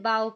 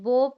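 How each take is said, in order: First: The vowel sounds like 'ow'. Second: The vowel sounds like 'oh'. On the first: It means to bend down. "इसे बाओ पढ़ रहे हैं" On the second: It means a ribbon. "यहाँ पे हम इसे बो पढ़ रहे हैं"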